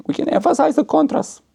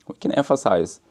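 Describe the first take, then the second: First: Much higher, stretched out on the contrast; high-pitched emphasis on "the contrast"; high emphatic. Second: Said in the usual way. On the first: Shown as a demonstration. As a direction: lift the line way up to stress the contrast.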